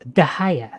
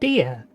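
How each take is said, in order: First: The name begins with a 'dah' sound. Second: The name begins with a 'dee' sound. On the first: This is the real pronunciation. The speaker calls it right. "It's actually pronounced Dahaya" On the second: This is how the game says it. The speaker calls it wrong. "The game pronounces it Dia"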